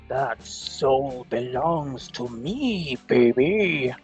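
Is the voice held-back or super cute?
held-back. A restrained, held-back character voice. The speaker calls it wrong. "I can't do the voice I want to do without being too loud"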